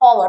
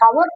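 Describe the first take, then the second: First: The word starts with a vowel sound. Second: The word starts with an h sound. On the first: The speaker calls it right. "एच जो है वो silent है" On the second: The speaker calls it wrong. "कुछ लोग पढ़ते हैं हावर"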